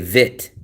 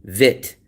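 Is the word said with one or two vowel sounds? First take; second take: one; one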